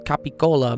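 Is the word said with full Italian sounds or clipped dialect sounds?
full Italian. All syllables are said fully, with voiceless consonants. This is the proper Italian form. The speaker calls it right. "it's capicola"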